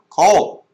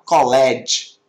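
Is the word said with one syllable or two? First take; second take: one; two. First: The ending is a short final consonant sound. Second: The ending is said as a separate syllable. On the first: The speaker calls it right. "Você fala called, called" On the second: The speaker calls it wrong. "Você não fala college, college, por favor"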